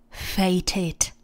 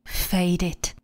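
First: The middle consonant is a clear t. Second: The middle consonant sounds almost like d.

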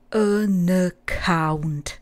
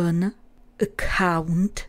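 First: The n runs straight into the following vowel. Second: The n is separated from the following vowel. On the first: The speaker calls it right. "ale an account" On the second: The speaker calls it wrong. "neříkáme an account"

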